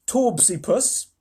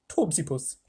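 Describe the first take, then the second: First: Torbsy Puss said slowly, rising on Torbsy; drawn-out name. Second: Torbsy Puss with a lisp, Puss as Putth; quick falling Torbsy Putth; quick lisped name. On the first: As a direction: stretch out Torbsy Puss with a lift. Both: Shown as a demonstration.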